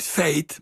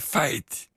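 First: The vowel is the standard, narrower ei sound. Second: The vowel is opened toward an ai sound. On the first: "En niet feit" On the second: "maar feit"

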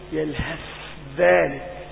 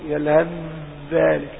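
First: The th sound is pronounced separately before dh. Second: The th sound merges fully into a voiced dh. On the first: The speaker calls it wrong. "لا تقول يلهث ذلك، هذا إظهار" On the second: The speaker calls it right. "إنما لابد أن تقول يلهث ذلك، تأتي بالجهر في الحرفين"

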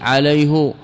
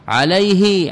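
First: The final pronoun is said with a u vowel. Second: The final pronoun is said with an i vowel. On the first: This is the form the Hijazis use. "الحجازيون يضمونها" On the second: This is the form most Arabs outside the Hijaz use. "غير الحجازيين يكسرونها"

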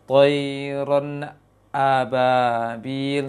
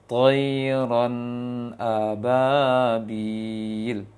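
First: The nun stops fully before the hamzah starts. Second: The nun flows straight into the hamzah. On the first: The speaker calls it wrong. "Yang terlalu menunggu maksimal lisannya turun baru baca hamzahnya" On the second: The speaker calls it right. "Seperti itu"

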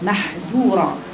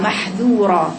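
No difference in how they are said.

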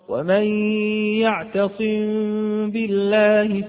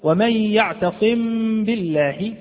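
First: The m is softly hidden through slightly parted lips. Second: The m is fully sounded with closed lips. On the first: The speaker calls it right. "انفراجة خفيفة جدا بين الشفتين" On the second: The speaker calls it wrong. "ظهرت الميم واضحة جدا، وأظنكم سمعتموها"

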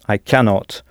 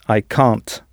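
First: The negative verb is said in full form. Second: The negative verb is said in contracted form.

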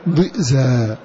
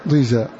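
First: A glottal stop follows the first consonant. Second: A long ee vowel follows the first consonant. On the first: This is the reading of one reciter. "فتكون هناك همزة ساكنة بعد الضاد مكان الياء" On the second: This is the reading of the other reciters. "والباقون قرأوا تلك إذا قسمة ضيزا بلا همز"

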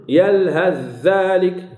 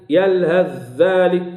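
No difference in how they are said.

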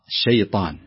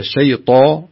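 First: The vowel is open with spread lips. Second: The vowel is rounded with pursed lips. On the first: The speaker calls it right. "تفتح الفك أو الشفتين" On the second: The speaker calls it wrong. "تفتح الحرف ... ولا تقول ... شيطا"

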